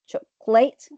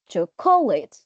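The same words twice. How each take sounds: First: The stress is on the third syllable. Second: The stress is on the second syllable. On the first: "If you stress the third syllable, ... which is incorrect again" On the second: "so you stress the second syllable, which is incorrect"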